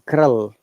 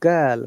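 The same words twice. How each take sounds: First: A Scottish accent with a rolled R. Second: A British accent with no rolled R. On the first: "but they say" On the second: "we say in British English"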